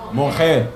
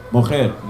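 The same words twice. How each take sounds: First: Mojer with a throaty h in the middle, mo-HER; teacher models Mojer, throaty middle sound; Hebrew word said. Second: Mojer again, mo-HER, dropping at the end; Hebrew word repeated. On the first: Teacher sounds out the Hebrew for selling, throaty middle. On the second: Teacher repeats the Hebrew word slowly, falling. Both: Shown as a demonstration. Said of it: "How you say selling?".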